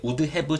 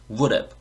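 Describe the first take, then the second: First: "would have" as two full words, "wudeu hae-beu"; honest, full pronunciation. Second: "would have" linked into "wour-eb"; fast pronunciation. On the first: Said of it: "정직하게 발음할 수 있지만". ("would have"를 "우드 해브"로 또박또박) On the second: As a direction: run "would have" together, dropping the h. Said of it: "빨리 발음하면". ("would have"를 "워럽"으로 빠르게 연음) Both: Shown as a demonstration.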